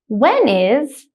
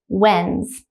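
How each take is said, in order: First: Both words are said fully and separately. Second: The two words merge into one contracted syllable.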